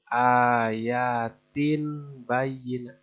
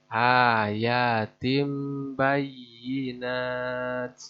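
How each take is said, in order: First: An n sound comes before the b. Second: An m sound comes before the b. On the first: The speaker calls it wrong. "Bukan ayatin bayinat" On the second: The speaker calls it right. "diganti dengan suara mim"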